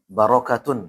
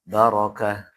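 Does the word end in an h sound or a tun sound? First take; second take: tun sound; h sound. First: The word ends with a full tun sound. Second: The word ends with a soft h sound. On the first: The reader continues without stopping. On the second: The reader stops on this word.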